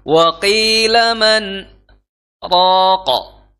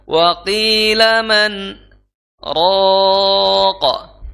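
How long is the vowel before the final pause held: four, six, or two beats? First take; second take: two; four. First: The vowel before the pause is held two beats. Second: The vowel before the pause is held four beats.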